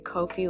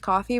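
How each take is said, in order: First: Its ending is said to rhyme with lo-fi. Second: It is said like the word coffee. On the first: "I say Kofi like, well, like a mix of coffee and lo-fi" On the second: "I think it's coffee"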